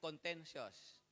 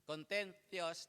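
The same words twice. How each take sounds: First: It is said in a Filipino accent, tongue kept low. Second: It is said with the tongue pushed out. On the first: "Kasi ang Pilipino, contentious. Nasa ilalim yung dila" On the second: "nasa labas ng dila"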